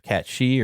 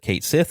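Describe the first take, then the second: First: The second word is said like 'she'. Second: The second word is said like 'sith'. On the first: This is the pronunciation the game did not use. "instead of Cat She or whatever" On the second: This is the pronunciation used in the game. "they did pronounce it Cait Sith"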